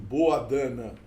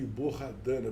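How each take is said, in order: First: The h in the middle is left silent. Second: The h in the middle is pronounced aloud. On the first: The speaker calls it right. "Há um H que eu não. que eu torno mudo" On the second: The speaker calls it wrong. "Há quem talvez pronuncie Borradana, porque é um H aí"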